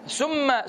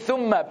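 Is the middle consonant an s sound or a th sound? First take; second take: s; th. First: The middle consonant is an s sound. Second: The middle consonant is a th sound. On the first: The speaker calls it wrong. "summa is like poison" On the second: The speaker calls it right. "Make sure you say thumma"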